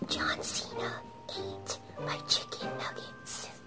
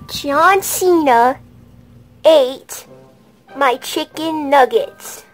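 First: It is spoken in a whisper. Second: It is spoken in a normal voice.

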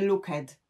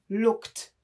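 First: The word does not end in a t sound. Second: The word ends in a plain t sound. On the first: The speaker calls it wrong. "a nie looked" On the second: The speaker calls it right. "Na końcu looked również słyszymy t"

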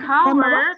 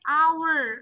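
First: The word starts with an audible h sound. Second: The word starts with no h sound. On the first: The speaker calls it wrong. "bacanya bukan hour" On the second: The speaker calls it right. "tapi hour. H-nya tidak diucapkan"

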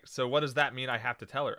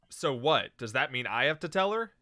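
First: It runs on with no break after "so what". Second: There is a break after "so what".

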